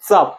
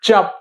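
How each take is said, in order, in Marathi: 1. पहिला व्यंजन दातांजवळ उच्चारला जातो. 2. पहिला व्यंजन जीभ वर उचलून उच्चारला जातो. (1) "जीभ बघा कुठे येत्या हे इथं येत्या बघा" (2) "जीभ बघा वरती जात्या"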